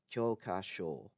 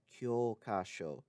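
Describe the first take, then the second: First: Kyokasho with a drawn-out O in the final syllable; short first O, hold the last O of kyokasho; long final O. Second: Kyokasho with a drawn-out O in the first syllable; long first O. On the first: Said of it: "has a long O sound in the final syllable". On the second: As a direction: hold the first O of kyokasho, short last O. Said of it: "has a long O sound in the first syllable". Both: Shown as a demonstration.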